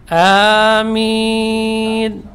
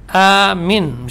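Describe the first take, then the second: First: Both vowels are drawn out long. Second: The second vowel is cut short. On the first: The speaker calls it right. "Jadi panjang" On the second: The speaker calls it wrong. "misalnya pendek minnya ya, artinya pengaman"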